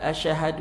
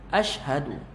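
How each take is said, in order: First: The sh sound is slurred without a firm stop. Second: The sh sound is held with a firm stop. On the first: It asks whether one has borne witness. The speaker calls it wrong. "Janganlah kita kata dia baca asyhadu" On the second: It states that one bears witness. The speaker calls it right. "Ash, matikan shin tu betul"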